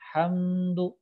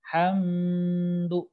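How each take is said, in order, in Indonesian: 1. Bunyi m mengalir langsung ke bunyi berikutnya. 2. Bunyi m ditahan sebelum lanjut. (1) "Langsung hamdu" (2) "tidak boleh ditahan, tidak boleh"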